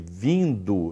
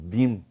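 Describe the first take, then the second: First: The -ndo ending is fully pronounced. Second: The -ndo ending is reduced to a nasal sound. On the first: "Em vez de vindo"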